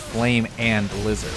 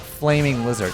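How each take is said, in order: First: The first part is two separate words, 'flame and'. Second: The first part blends into one word, 'flaming'. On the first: The speaker calls it right. "it's flame and lizard" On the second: The speaker calls it wrong. "It's not flaming lizard"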